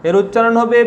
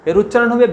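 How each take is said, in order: Both takes have the same delivery.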